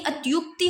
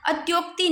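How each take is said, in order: First: "अत्युक्ति" with tyu; corrected pronunciation. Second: "अत्योक्ति" with tyo; rejected pronunciation. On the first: Teacher giving the correction, "अत्युक्ति" with tyu. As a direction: say a short u in "अत्युक्ति". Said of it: "अत्युक्ति होता है". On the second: Teacher showing the error, "अत्योक्ति" with tyo. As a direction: round the o in "अत्योक्ति". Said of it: "अत्योक्ति नहीं". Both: Shown as a demonstration.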